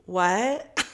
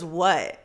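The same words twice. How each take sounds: First: Questioning "what?" with rising end; acted-out disbelief, pitch lifting at the end; baffled. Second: Imitated curt "what?" with falling end; curt landlord. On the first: Her baffled reaction to landlord. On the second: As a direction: drop it like an unwelcoming phone answer. Landlord answering the phone curtly.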